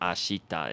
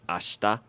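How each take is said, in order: First: The i after sh is clearly voiced. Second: The i after sh is nearly silent. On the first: The speaker calls it wrong. "instead of ashita" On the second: The speaker calls it right. "he kind of didn't really pronounce the she there"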